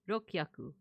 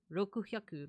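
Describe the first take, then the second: First: The u vowel is dropped between k and h. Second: Both words are said fully, with every vowel. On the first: This is a guessed middle stage. "you tend to drop the vowel" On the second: This is the guessed original form. "maybe it did start out as Roku Hyaku"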